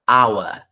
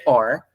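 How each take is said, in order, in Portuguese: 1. A palavra é dita com sotaque britânico. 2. A palavra é dita com sotaque americano. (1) "em inglês britânico" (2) "or é em inglês americano"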